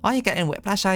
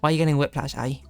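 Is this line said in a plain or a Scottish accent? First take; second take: Scottish; plain. First: It is said in a Scottish accent. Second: It is read in the speaker's ordinary accent.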